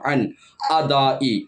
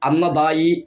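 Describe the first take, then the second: First: The n stops before a glottal break. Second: The n is doubled and runs into the next word. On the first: The speaker calls it right. "നൂന് സുക്കൂന്" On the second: The speaker calls it wrong. "എന്നൊരിക്കലും തന്നെ പറയാൻ പാടില്ല"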